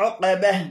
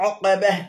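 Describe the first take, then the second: No difference in how they are said.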